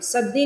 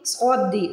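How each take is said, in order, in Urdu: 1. 's' کی آواز پتلی ہے، سادہ s کی طرح۔ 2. 's' کی آواز بھاری اور موٹی ہے۔ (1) "صدی نہیں" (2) "صاد کو موٹا بھی پڑھنا ہے اور صاد کی آواز آنی چاہیے"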